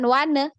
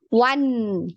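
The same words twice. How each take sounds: First: The n sound stops short without flowing on. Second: The n sound flows on through the nose. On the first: The speaker calls it wrong. "bukan one" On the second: The speaker calls it right. "tapi one ngalir ya"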